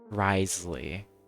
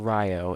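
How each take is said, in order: First: The name is said as short 'Risley'. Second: The name begins with a 'rye-oh' sound. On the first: The speaker calls it right. "it's Risley" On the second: The speaker calls it wrong. "It's not it's not Ryo"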